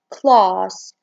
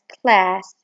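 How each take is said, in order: First: It is said in a British accent. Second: It is said in an American accent. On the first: "In British, they say it as class" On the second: "In American, they say it as class"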